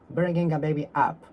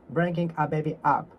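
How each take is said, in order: Both takes have the same delivery.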